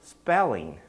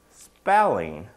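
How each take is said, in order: First: Said in the usual way. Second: Spelling lifted in a slow rising tune; Spelling drawn out and rising, as a clue. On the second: Shown as a demonstration. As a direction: let Spelling hang like a hint.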